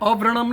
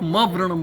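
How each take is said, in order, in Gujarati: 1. આ શબ્દ સીધો સ્વરથી શરૂ થાય છે. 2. આ શબ્દ જોડાયેલા m અવાજથી શરૂ થાય છે. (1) "અવ્રણમ નહીં બોલવાનું" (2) "પણ મવ્રણમ બોલવાનું"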